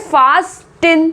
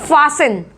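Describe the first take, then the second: First: The t is pronounced in the middle. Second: The t is left out in the middle. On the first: The speaker calls it wrong. "लिखा क्या है?" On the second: The speaker calls it right. "लेकिन हम यहाँ क्या पढ़ने वाले हैं?"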